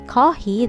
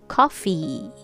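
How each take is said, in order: First: The word starts with a breathy H sound. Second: The word starts with a lip-teeth F sound. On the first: The speaker calls it wrong. "if you say coffee, that's H" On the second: The speaker calls it right. "when you say this word in American English, be careful. It's coffee"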